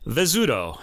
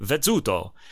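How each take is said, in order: First: The double z is said as a z sound. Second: The double z is said as a ts sound. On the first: "I'm American and people say Vezzuto" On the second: "pronounced like a TZ in English, right? Like pizza. So you'd say Vezzuto"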